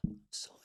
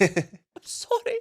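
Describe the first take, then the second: First: Unvoiced mock whisper of sorry; whispered apology. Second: Much higher, very slow stretched sorry; mock apology. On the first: Mimicking a player apologising to his old club, whispered. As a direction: breathe the apology out like a sheepish footballer. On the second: Mocking the player's non-celebration to co-hosts, high stretched sorry. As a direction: draw the sorry out high and pleading, hammed-up. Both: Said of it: "He went".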